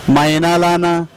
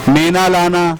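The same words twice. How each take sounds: The two takes are said the same way.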